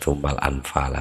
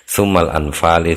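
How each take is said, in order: First: The last word ends with an 'a' vowel. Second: The last word ends with an 'i' vowel. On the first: The speaker calls it wrong. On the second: The speaker calls it right.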